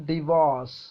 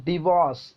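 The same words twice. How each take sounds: Both takes have the same delivery.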